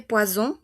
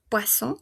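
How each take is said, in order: First: "poison" as pwa-ZON, with buzzing z; French "poison", single S buzzed; vibrating Z. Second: "poisson" as pwa-SON, with hissed s; French "poisson", double S as normal s; unvoiced S. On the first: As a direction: voice the middle of "poison" as z. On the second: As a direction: keep the middle of "poisson" a voiceless s. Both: Shown as a demonstration. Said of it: "este que es medio vibrante".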